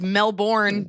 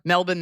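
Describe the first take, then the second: First: "Melbourne" as mel-BORN, R sounded; American pronunciation. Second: "Melbourne" as MEL-bn, no R; Australian pronunciation. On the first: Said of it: "here because we say the R". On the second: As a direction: drop the R in "Melbourne". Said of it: "Melbourne there". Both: Shown as a demonstration.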